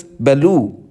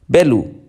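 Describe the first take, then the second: First: "belu" with the second syllable stressed and drawn out; light start, lean on the end of "belu". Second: "belu" with the first syllable stressed, falling away on the second. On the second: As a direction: hit the start of "belu", let the end drop. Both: Shown as a demonstration. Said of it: "this can create minimal pairs".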